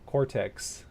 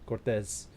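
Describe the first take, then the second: First: The name ends with a ks sound. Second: The name ends with a z sound. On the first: The speaker calls it right. "but it's Cortex. Cortex, not Cortex" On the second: The speaker calls it wrong. "I keep thinking it's a, Mexi- a Spanish name, Cortez"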